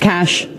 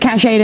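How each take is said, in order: First: The word has one syllable, like 'cash'. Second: The word has two syllables, ending in 'ay'. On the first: The speaker calls it right. "It's cash" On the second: The speaker calls it wrong. "Everybody says cash aid"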